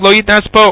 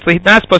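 First: The first syllable sounds like 'loit'. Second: The first syllable sounds like 'lit'. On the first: The meaning of the word becomes unclear. The speaker calls it wrong. "it's gonna sound like Loitnaspa" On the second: The meaning of the word is clear. The speaker calls it right. "you rather should make sure that it's Litnaspa"

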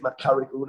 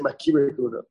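First: The first word is said with an a vowel. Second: The first word is said with an i vowel. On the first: This form links the word to makaro. The speaker calls it right. "The correct way is Makari Kahuna, that's what Rashi says" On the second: This form is the common yeshiva usage. The speaker calls it wrong. "the Yeshiva's Dominicans say Makiri Kahuna. Why it got mispronounced"

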